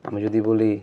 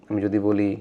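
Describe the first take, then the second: The two takes are said the same way.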